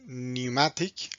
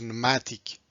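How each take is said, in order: First: The word is said with a British pronunciation. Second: The word is said with an American pronunciation. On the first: "in British pronunciation is pneumatic" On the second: "American pronunciation is pneumatic"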